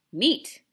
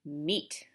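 First: Loud, insistent one-word demand; firm, stubborn repeat; uncompromising. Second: Lower, sighing surrender; weary, lowered acceptance; resigned sigh. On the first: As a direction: refuse to budge. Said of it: "folded his arms uncompromisingly". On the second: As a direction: give in with a sigh. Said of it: "said Omri with a sigh". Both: A narrator's reading.

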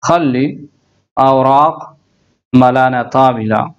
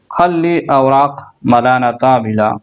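First: Each word said slowly apart with pauses. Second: Said in the usual way. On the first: Shown as a demonstration. Teacher spelling out an Arabic sentence word by word for learners. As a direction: break the sentence into single words.

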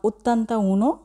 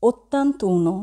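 First: "ottanta uno" said as two separate words with a break before uno; wrong split form. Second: Said in the usual way. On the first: Shown as a demonstration. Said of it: "বলবো না". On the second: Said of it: "বলবো".

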